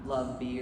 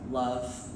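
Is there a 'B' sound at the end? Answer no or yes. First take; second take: yes; no. First: It is said with an added B sound. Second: It is said as one word, no final B. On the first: The speaker calls it wrong. "not love B or anything like that" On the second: The speaker calls it right. "it's pronounced like love"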